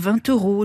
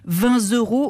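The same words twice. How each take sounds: First: No z sound links vingt to euros. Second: A z sound links vingt to euros. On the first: The speaker calls it right. "au lieu de" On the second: The speaker calls it wrong. "une liaison erronée en Z"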